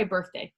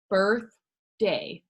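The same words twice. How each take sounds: First: Said in the usual way. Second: "Birthday" in two drawn-out beats; split into syllables. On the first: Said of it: "So let's try birthday". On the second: Shown as a demonstration. Teacher tests chin drops on syllables, "Birthday" split in two. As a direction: say "Birthday" with a gap between birth and day. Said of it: "anytime your chin goes down".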